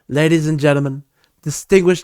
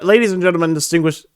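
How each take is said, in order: First: It is said in an imitated politician's voice. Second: It is read in the speaker's ordinary voice. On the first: The speaker calls it right. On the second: The speaker calls it wrong.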